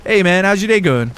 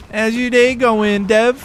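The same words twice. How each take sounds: First: Said in the usual way. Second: Mock sing-song greeting.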